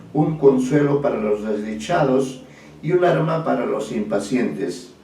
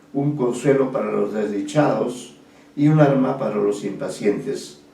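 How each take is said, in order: The two takes are said the same way.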